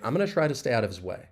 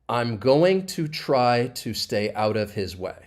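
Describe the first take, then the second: First: The sentence is spoken fast and run together. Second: The sentence is spoken slowly and carefully. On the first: "I'll say it much faster" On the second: "I'm not really going to say it like that"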